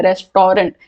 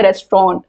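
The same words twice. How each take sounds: First: रेस्टोरेंट as three parts, "res-to-rent"; common mispronunciation. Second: रेस्टोरेंट squeezed to two parts, "rest-ront"; correct pronunciation. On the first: Teacher repeating a common reading, रेस्टोरेंट as "res-to-rent". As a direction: keep the vowel before the final "nt" in रेस्टोरेंट. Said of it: "बहुत सारे लोग रेस्टोरेंट पढ़ते हैं". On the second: Teacher giving the actual pronunciation, रेस्टोरेंट as "rest-ront". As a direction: drop the middle vowel of रेस्टोरेंट, "rest-ront". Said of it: "इसका actual pronunciation है". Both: Shown as a demonstration.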